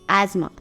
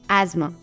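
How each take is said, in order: No difference in how they are said.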